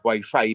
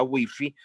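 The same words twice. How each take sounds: First: "wifi" said as "waifai", English vowel in both syllables; Chilean English-style wifi. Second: "wifi" said as spelled, "wi-fi" with Spanish i vowels. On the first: Linguist showing how Chileans say it: "wifi" as "waifai". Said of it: "en Chile decimos wifi". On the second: Linguist contrasting Spain's pronunciation: "wifi" with plain Spanish i. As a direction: read "wifi" letter by letter in Spanish, "wifi". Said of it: "pero en España wifi". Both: Shown as a demonstration.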